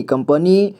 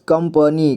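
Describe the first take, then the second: First: Said in the usual way. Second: कंपनी split as "kam-pa-nee"; कंपनी read piece by piece; sounded out. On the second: Shown as a demonstration. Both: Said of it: "इसे पढ़ेंगे".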